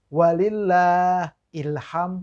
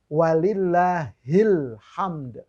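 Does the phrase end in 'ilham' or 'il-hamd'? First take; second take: ilham; il-hamd. First: The phrase ends with the sound 'ilham'. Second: The phrase ends with the sound 'il-hamd'. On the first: The speaker calls it wrong. "bukan ilham" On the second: The speaker calls it right. "Pakai ha yang baris bawah"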